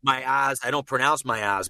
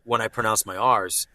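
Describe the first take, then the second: First: Boston R-dropping, "R's" as "ahs"; Boston accent. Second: A full, sounded r inside "R's"; pronounced R. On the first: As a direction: drop the R in "R's", Boston style. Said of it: "this is my normal accent". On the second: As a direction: curl a clear American r in "R's". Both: Shown as a demonstration.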